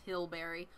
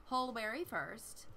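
First: Hilberry said with a short i, laughing at the slip; mispronounced Hilberry. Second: Hulberry said slowly with a clear u sound; carefully fix it to Hulberry, slowly; corrected Hulberry. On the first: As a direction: say it wrongly as Hilberry, with an i sound. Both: Shown as a demonstration.

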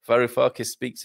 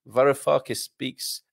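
First: Said in the usual way. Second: VAROUFAKIS SPEAKS drawn out slowly and carefully; careful pronunciation. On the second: Real, not acted. Host reading out a tricky name from the chat, slow and careful. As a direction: say "Varoufakis speaks" slowly, minding each sound. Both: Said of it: "you gotta be careful how you say that".

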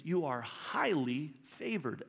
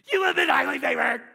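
First: Said in the usual way. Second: High, loud, excited proclamation; bursting yell. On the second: Acted. Angel greeting Mary, bursting with an excited yell. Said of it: "busting at the seams".

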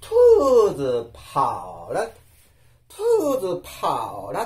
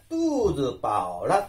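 First: トゥーズパオラ with puffs of air after T and P; mistaken aspirated. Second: トゥーズパオラ with no puff after T or P; careful unaspirated Chinese トゥーズパオラ; correct unaspirated. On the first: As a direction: breathe out hard between consonant and vowel in トゥーズパオラ. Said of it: "間違ってですね". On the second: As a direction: go straight into the vowels of トゥーズパオラ. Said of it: "お腹がいっぱいになりました". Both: Shown as a demonstration.

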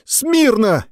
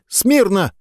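First: Shriller shouted command; higher try. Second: High thin squeaked command; weak cadet squeaking the order. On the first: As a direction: try harder, still squeaky. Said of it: "Не так, громче!". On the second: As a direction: squeak it out timidly. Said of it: "пискнул парнишка". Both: A narrator's reading.

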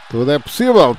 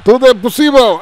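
First: Said in the usual way. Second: "tudo é possível" much higher and louder second time; excited repeat. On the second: Real, not acted. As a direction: shout "possível" out. ("tudo é possível" gritado)

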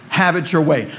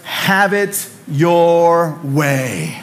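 First: Said in the usual way. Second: Drawn-out ad slogan; slogan read slowly. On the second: Retold or imitated. Pastor quoting the Burger King slogan, very slow. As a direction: stretch Have it your way like a jingle. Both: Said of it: "Burger King's slogan was".

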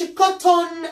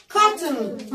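First: Cotton said as kot-toon, full O and a long held N; wrong pronunciation. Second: Said in the usual way. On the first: Shown as a demonstration. Teacher showing pupils how not to say it, mock wrong pronunciation. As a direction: spell out both syllables of cotton, the wrong way. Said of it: "ما أقولش cotton". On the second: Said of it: "ال O وال N بقولها على بعض".

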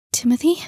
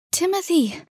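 First: Higher, louder rising question; surprised question. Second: High-pitched falling cry of recognition; startled exclamation. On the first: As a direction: ask it in startled disbelief. Girl recognises him, unsure. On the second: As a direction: cry out the name on finding him. Second girl arrives, finds him. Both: Acted.

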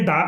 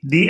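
First: "దా" with an open ah vowel; "the" sounded as "dha"; "dha" before consonants. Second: "the" pronounced "dee", long ee; vowel-sound form of "the", rhyming with see; "dee" before vowels. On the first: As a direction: say "దా", the consonant form of "the". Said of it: "హల్లు శబ్దం ఉంటే దా అని పలకాలి". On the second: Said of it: "అచ్చు శబ్దం ఉంది కాబట్టి the అని పలకాలి". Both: Shown as a demonstration.

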